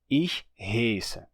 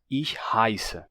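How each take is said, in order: First: The vowel is a plain 'e' sound. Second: The vowel is an 'eye'-like diphthong. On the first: This is the usual Hunsrückisch pronunciation. "Se pronuncia heiße" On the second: This is the standard German pronunciation. "o alemão padrão mudou para"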